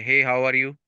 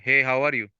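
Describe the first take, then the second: First: The pitch stays flat on one level. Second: The pitch rises and falls throughout. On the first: The speaker calls it wrong. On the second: The speaker calls it right.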